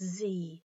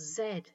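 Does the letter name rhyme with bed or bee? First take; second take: bee; bed. First: It is said American-style, rhyming with bee. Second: It is said British-style, rhyming with bed.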